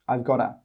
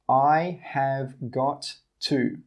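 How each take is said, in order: First: The words are contracted and run together. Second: Every word is said fully, with no contraction. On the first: The speaker calls it right. "we say I've. ... we say gotta" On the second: The speaker calls it wrong. "We don't say I have, ... We don't say got to"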